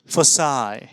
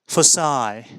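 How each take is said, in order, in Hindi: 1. शब्द उस स्वर पर खत्म होता है जो 'my' में है। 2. शब्द उस स्वर पर खत्म होता है जो 'my' में है।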